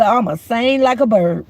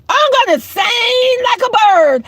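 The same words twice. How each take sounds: First: Said in the usual way. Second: Emphatic repeat. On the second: Real, not acted. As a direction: belt out "sing like a bird" as a threat. Emphatic repeat of her threat.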